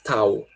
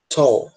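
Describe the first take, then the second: First: The vowel sounds like an open A. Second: The vowel sounds like an O. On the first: The speaker calls it wrong. "a gente não vai falar tal" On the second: The speaker calls it right. "esse A, né, vai ter um som de O na pronúncia"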